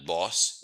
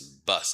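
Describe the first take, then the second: First: The vowel is not a mid central sound. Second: The vowel is a mid central sound. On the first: The speaker calls it wrong. "It's not boss" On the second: The speaker calls it right. "It's a mid central vowel sound"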